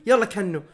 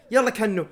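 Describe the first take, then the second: No difference in how they are said.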